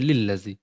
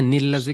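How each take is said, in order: First: The phrase starts with an l sound. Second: The phrase starts with an n sound. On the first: The speaker calls it wrong. "पढ़ देते हैं लिल लज़ी, तो मीनिंग एकदम बदल जाता है" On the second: The speaker calls it right. "नील लज़ी की जगह"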